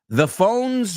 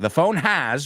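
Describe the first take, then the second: First: The word has is shortened to an s sound. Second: The word has is said fully as its own word. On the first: The speaker calls it right. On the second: The speaker calls it wrong.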